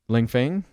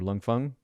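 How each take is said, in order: First: The name is said in a plain anglicized way. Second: The name is said closer to the Mandarin pronunciation. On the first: The speaker calls it wrong. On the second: The speaker calls it right.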